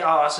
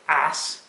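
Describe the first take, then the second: First: The word is said in a British accent. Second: The word is said in an American accent. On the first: "I would say ass, as I'm English" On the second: "but the Americans would say ass"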